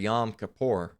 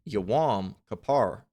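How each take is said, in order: First: The first word has one short syllable. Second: The first word has two syllables. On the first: The speaker calls it wrong. "they call it" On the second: The speaker calls it right. "it really should be"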